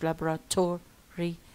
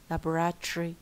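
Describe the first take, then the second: First: The ending is said fully as 'tory'. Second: The ending is squeezed into 'tree'. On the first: The speaker calls it wrong. "مش laboratory" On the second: The speaker calls it right. "tree tree"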